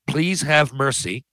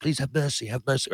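First: Drawn-out slow begging; slow plea. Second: Soft pleading. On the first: Quoting his single audition line, slow plea. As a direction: stretch the plea out slowly. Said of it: "the, the". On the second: Actor demoing his one line, soft desperate plea. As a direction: beg quietly like a beaten soldier. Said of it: "Now, I could do that". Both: Shown as a demonstration.

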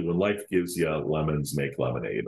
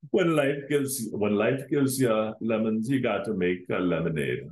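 First: Said in the usual way. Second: Put-on a weak, hammy Jamaican accent; badly faked Jamaican accent. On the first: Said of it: "or something along those lines in the Jamaican, uh, accent". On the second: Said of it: "That was a horrible one".

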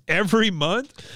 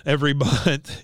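First: "Every month?" pitched high, rising at the end; incredulous question. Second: Said in the usual way. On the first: Retold or imitated. Son questioning his dad, "Every month?" rising in disbelief. Bobby questioning what Hank said.

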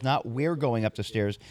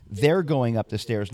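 First: We're leaned on as the contrast word; stress on we're. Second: They're slowed and leaned on, not we're; stress on They're. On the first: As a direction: punch we're against They're. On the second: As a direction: hit They're, the rest slower. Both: Shown as a demonstration. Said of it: "notice how exactly he phrases this".

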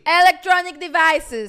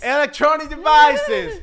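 First: Slow, loud and higher commanding call; imitating security officer. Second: Slow, much higher, loud mock bellow; imitating security officer. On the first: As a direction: drag out the order like an impatient guard. (imitando al guardia, lento y fuerte) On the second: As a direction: stretch the words and bellow them like a caricature guard. (imitación exagerada del guardia, lenta y aguda) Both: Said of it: "cuando me empiezan a hablar así".

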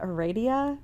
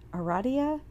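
First: Aradia said as "uh-RAY-dee-uh"; trying a pronunciation. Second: Aradia said as "uh-RAH-dee-uh", a little higher; another try at the name. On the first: Host testing listener's name aloud, saying Aradia as uh-RAY-dee-uh. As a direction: Aradia with a long AY in the middle. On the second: Host testing listener's name again, Aradia as uh-RAH-dee-uh. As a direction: Aradia with an open AH in the middle. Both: Shown as a demonstration. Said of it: "Now I don't even know what I say".

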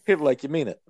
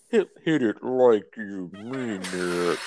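First: Said in the usual way. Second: Slow, stretched-out egging on; slow-motion cheer for a friend taking a hit; drawn-out urging. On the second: Real, not acted. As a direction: drag the words out in an altered voice. Repeats it drawn out while smoking.

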